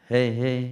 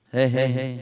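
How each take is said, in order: The two takes are said the same way.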